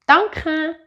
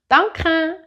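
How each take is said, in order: No difference in how they are said.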